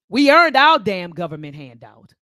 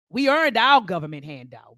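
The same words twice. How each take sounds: First: Forceful, louder; loud emphatic. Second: Said in the usual way. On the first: Real, not acted. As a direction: hit earned hard.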